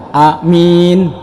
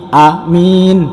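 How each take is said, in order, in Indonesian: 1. Vokal pertama pendek, yang kedua panjang. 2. Vokal pertama pendek, yang kedua panjang.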